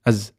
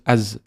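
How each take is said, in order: No difference in how they are said.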